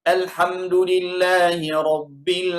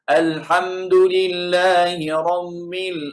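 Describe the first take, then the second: First: The b is plain, firm, without a puff of air. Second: The b is pressed nasally like an m. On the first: The speaker calls it right. "Itu yang bagus atau yang betul" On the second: The speaker calls it wrong. "tekan seperti huruf mim"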